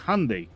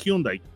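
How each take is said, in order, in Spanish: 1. Se pronuncia a la inglesa. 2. Se pronuncia a la española. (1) "la persona que habla inglés le dice" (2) "como somos latinos, nosotros lo podemos decir así"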